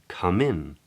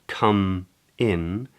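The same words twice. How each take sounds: First: The final consonant links into the next vowel. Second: The two words are said separately.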